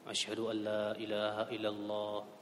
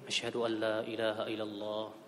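No difference in how they are said.

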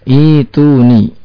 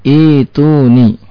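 The two takes are said the same way.

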